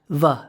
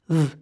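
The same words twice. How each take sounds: First: The consonant is followed by an uh vowel. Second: The consonant is clipped with no vowel after. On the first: The speaker calls it wrong. "not v" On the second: The speaker calls it right. "We want to say"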